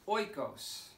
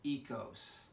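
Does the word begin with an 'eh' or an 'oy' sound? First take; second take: oy; eh. First: The word begins with an 'oy' sound. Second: The word begins with an 'eh' sound. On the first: The speaker calls it wrong. "I used to pronounce this oikos" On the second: The speaker calls it right. "That word is pronounced ekos"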